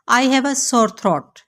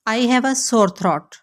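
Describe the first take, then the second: No difference in how they are said.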